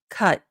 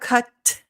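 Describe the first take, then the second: First: The final T is held without release. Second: The final T is released sharply with air. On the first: "your tongue is still going to go in the T position" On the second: "that sharp aspirated T"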